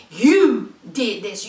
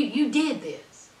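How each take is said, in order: First: Slowly accuse, leaning hard on "You"; long, punched "You", then a pause; stress on YOU. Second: Said in the usual way. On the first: Real, not acted. Repeats it pointedly for blame.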